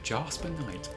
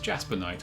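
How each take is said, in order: First: Said with an imitated, not genuinely British accent. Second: Said the way a natural English accent says it. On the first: The speaker calls it wrong. "She said Jasper Knight" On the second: The speaker calls it right. "anyone with an English accent would know it's Jasper Knight"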